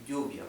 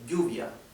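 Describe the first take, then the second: First: The double L sounds like a y. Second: The same.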